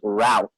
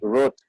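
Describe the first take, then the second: First: It is said with an American pronunciation. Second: It is said with a British pronunciation. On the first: "the American English we read it as route" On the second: "English English they read like route"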